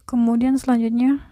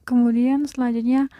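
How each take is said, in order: Both takes have the same delivery.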